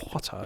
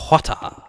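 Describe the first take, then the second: First: "water" said low and soft, the way a TV character said it; copied TV pronunciation. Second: Water with a dropped, clipped start; odd way of saying water. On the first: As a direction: imitate how someone on TV said "water". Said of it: "someone said it like that". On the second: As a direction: say "water" oddly, chopping the first sound. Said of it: "Don't know why I felt the need to say". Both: Shown as a demonstration.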